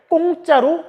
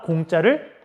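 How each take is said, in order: First: The first consonant is a tense, stiff k. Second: The first consonant is a plain, lax k. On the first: The speaker calls it wrong. "된 소리를 대, 만드는 거죠" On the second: The speaker calls it right. "된 소리가 될 이유도 없는데"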